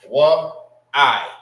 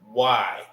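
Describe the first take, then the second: First: It is said as two separate syllables. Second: It is said as one joined syllable. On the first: The speaker calls it wrong. "You don't say what I" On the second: The speaker calls it right. "So it would be why"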